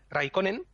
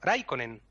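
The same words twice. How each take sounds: First: The stress falls on a later syllable. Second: The stress falls on the first syllable. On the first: The speaker calls it wrong. "no se dice Raikkonen" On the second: The speaker calls it right. "Todas las palabras se acentúan en la primera"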